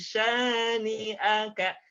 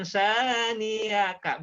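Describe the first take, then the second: First: "syani'aka" chanted slowly, clean "a" after long "ni"; correct glottal catch. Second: "syani'aka" drawn out, "ni" gliding into "a"; wrong glide. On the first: Teacher giving the correct reading, slow chanted "syani'aka". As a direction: separate "ni" from "a" in "syani'aka". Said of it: "tapi syani'aka". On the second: Teacher showing the error, gliding "syani'aka". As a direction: stretch "syani'aka" with no catch before "a". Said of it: "Bukan syani'aka". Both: Shown as a demonstration.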